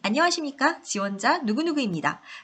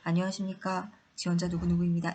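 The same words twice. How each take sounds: First: It is said brightly with lively energy. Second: It is said flatly with little energy. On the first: It creates a much more favorable impression. The speaker calls it right. "라고 경쾌하게 이야기하시는 것이" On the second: It makes a weaker first impression. The speaker calls it wrong. "이렇게 말씀하시는 것보다는"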